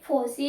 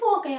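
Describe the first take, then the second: First: The c is said with an s sound. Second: The c is said with a k sound. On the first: Some people say it this way. "ఫోసి అంటారు కొంతమంది" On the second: This way is also acceptable. "ఫోకై అనొచ్చు"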